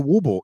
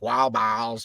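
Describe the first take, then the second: First: The words are run together into one short word. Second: Both words are said fully and carefully. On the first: "you just say wooble" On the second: "trying to say it correctly"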